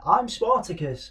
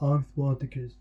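First: It is said in a high-pitched voice. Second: It is said in a lower, normal voice.

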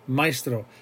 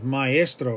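First: The a and e glide together in one syllable. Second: The a and e sound in separate syllables. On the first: The speaker calls it wrong. "Maestro would be if you pronounce it like a diphthong" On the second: The speaker calls it right. "We're hitting the A and we're hitting the E"

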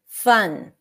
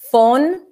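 First: The vowel is a neutral uh sound. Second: The vowel is a rounded O sound. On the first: The speaker calls it right. "it's like a very natural, neutral sound" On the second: The speaker calls it wrong. "switch the sound of the word fun with an o"

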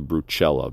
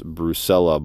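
First: The name is said with Italian pronunciation. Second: The name is said with English pronunciation. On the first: This follows the name's language of origin. "that's the Italian pronunciation" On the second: This is how the name's owner says it. "She said it's Brucella"

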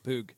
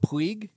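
First: The name is said with one short vowel, like 'pug'. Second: The name is said with two vowels, like 'pweeg'. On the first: This is the way the broadcast says it. The speaker calls it right. "I realized through the LIV broadcast that it's Pug" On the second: This is the way it used to be said. The speaker calls it wrong. "I used to call him Puig"

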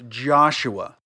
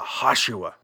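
First: The name begins with a J sound. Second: The name begins with an H sound. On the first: The speaker calls it wrong. "But I'm not saying it right" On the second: The speaker calls it right. "A Middle Eastern person says the letter J with a H"

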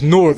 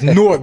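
First: Newark is pronounced the way locals say it. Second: Newark is pronounced the way outsiders say it. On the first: The speaker is from the area. The speaker calls it right. "It's Newark" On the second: The speaker is not from the area. The speaker calls it wrong. "if you're not from Jersey, you think it's Newark"

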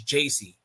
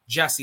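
First: The name is said like Jay-see. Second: The name is said like Jesse. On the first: The speaker calls it right. "no, it's JC" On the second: The speaker calls it wrong. "my brain is like Jesse"

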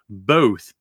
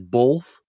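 First: No L sound is heard before the th. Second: An L sound is heard before the th. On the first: The speaker calls it right. "It's both, B-O-T-H, not B-O-L-T-H" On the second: The speaker calls it wrong. "someone says both, when there's not a fucking L in both"

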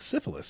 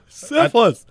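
First: The word is said in an American accent. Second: The word is said in a Scottish accent. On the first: "And your American accent" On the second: "Fucking accented"

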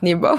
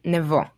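First: The name is given its English pronunciation. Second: The name is given its Hebrew pronunciation. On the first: The speaker calls it wrong. "and not Nebo" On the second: The speaker calls it right. "I prefer the way we say Nebo"

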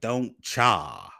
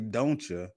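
First: The second word is an emphasized 'cha'. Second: The second word is a soft 'ya'. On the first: The speaker calls it wrong. "why did you put that emphasis on cha like that?" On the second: The speaker calls it right. "I didn't say "don't ya,""

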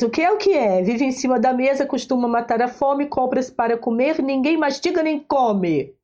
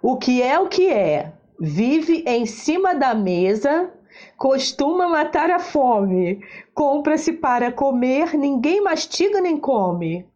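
First: It is read at a faster pace. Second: It is read at a slower pace.

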